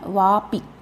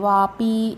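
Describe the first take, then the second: First: The final i vowel is kept short. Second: The final i vowel is drawn out long. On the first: The speaker calls it right. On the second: The speaker calls it wrong.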